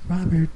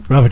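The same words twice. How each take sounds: First: The voice is put on high and girlish. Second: The voice is kept low and deep. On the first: "I'll do the girl voice" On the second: "I kept it real deep"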